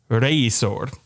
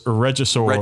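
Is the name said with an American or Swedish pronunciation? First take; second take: Swedish; American. First: It is said with a Swedish-style pronunciation. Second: It is said with an American English pronunciation. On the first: "what I think is probably the Swedish way of saying it" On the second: "in American English"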